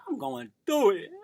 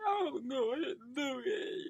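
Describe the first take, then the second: First: Said in the usual way. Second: High, slow mock wail; hammed-up crying wail. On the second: Co-host moaning to the podcast audience, high mock-crying wail. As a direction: drag it out high like fake crying. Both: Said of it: "Please, don't do that no more".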